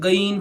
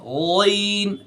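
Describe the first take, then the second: First: The first sound is made further forward. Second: The first sound is made deep in the throat. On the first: The speaker calls it wrong. "इसे हम अगर गैन पढ़ेंगे ये गलत है" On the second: The speaker calls it right. "गैन अंदर से"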